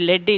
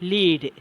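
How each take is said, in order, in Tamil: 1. உயிர் ஒலி குறுகிய 'e' ஒலி. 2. உயிர் ஒலி நீண்ட 'ee' ஒலி. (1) "எப்படி ப்ரொனவுன்ஸ் பண்ணுறன்ற லெட்" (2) "அதை நம்ம எப்படி ப்ரொனவுன்ஸ் பண்ணுறோம்? ... இந்த லீடு"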